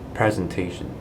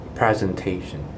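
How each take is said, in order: Both takes have the same delivery.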